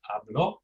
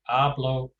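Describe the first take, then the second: First: The stress is on the last syllable. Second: The stress is on the first syllable. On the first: He, she or you spoke, in the past. "he, she, you spoke in the in the preterite tense" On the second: I speak, in the present. "I speak in the present"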